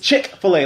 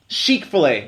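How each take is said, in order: First: The first syllable sounds like 'chicken'. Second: The first syllable does not sound like 'chicken'. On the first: This is the newer name. "like chicken" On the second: This is the older name. "That's how people pronounced it originally"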